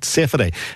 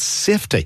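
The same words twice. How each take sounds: First: It is said with an extra middle syllable. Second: It is said with only two syllables. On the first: The speaker calls it wrong. "where people call it safety. Safety first. There's no entity in it" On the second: The speaker calls it right. "It's safety"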